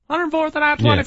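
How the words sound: It is said in a high-pitched put-on voice.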